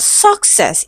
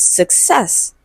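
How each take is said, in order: First: "success" with the weight moved onto the first syllable, SUC-cess; wrongly placed stress. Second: "success" said slowly with the weight on -CESS; stress on second syllable. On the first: Teacher shows students what it is not, "success" stressed on SUC. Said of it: "so it's not success". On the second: Teacher corrects the word for students, "success" stressed on -CESS. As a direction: land firmly on the last syllable of "success". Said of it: "it is success". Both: Shown as a demonstration.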